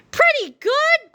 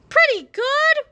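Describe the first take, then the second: First: Put-on high, slow, offended old-man cry; indignant old man. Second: Put-on high whiny old-man echo; whining old man. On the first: Old Harold offended at the kids' verdict, cranky high cry. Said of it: "cried old Harold". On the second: Old Harold whines the same words again, high whiny voice. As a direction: whine it like a grumpy grandpa. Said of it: "whined old Harold". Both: A narrator's reading.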